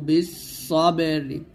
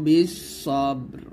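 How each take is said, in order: First: The word ends with a short vowel after r. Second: The word ends abruptly on the r sound. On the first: The recitation continues without stopping. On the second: The reciter stops at this point.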